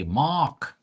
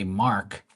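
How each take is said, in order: First: "Mark" with no R, like "Mahk"; Bermudian pronunciation. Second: Said in the usual way. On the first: Shown as a demonstration. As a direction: drop the R in "Mark", higher pitch. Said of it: "They say". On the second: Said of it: "they don't say Mark".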